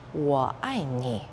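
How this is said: The syllables flow together smoothly as one phrase. "make it flow like a musical phrase"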